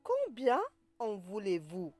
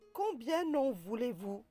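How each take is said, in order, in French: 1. Combien et en restent séparés, sans son de liaison. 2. Combien se lie à en avec un son n.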